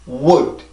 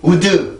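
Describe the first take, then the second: First: The word ends cleanly on d, no vowel. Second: An extra vowel sound follows the final d. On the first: The speaker calls it right. "아주 그 으라는 소리는 없단 말이에요" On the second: The speaker calls it wrong. "우드 우드 이게 아니라"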